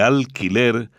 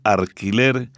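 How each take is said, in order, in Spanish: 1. La primera sílaba termina en un sonido L. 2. La primera sílaba termina en un sonido R. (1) "en lugar de alquiler" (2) "reemplazar la L por R, como decir alquiler"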